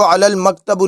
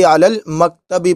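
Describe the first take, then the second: First: मकतबु ending in a short "u" sound; wrong ending, -u. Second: मकतबी ending in an "i" sound; correct ending, -i. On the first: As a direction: say मकतबु with a final u vowel. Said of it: "नहीं पढ़ेंगे बल्कि". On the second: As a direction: say मकतबी with a final i vowel. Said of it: "बल्कि अलल मकतबी पढ़ेंगे". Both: Shown as a demonstration.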